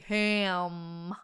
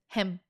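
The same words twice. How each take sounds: First: The vowel is drawn out and long. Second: The vowel is clipped and short. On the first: The speaker calls it wrong. "But don't say ham" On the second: The speaker calls it right. "Just ham. Short"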